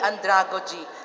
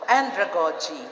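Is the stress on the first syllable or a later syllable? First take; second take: later; first. First: The stress is on a later syllable. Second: The stress is on the first syllable. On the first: The speaker calls it wrong. "hindi andragogy" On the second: The speaker calls it right. "first accent of the first syllable"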